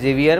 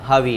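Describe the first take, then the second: First: The name begins with a buzzing z sound. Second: The name begins with a breathy h sound. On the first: The speaker calls it wrong. "याचं नाव लिहिलेलं आहे झेवियर" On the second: The speaker calls it right. "तिकडे जेचं उच्चारण होत नाही"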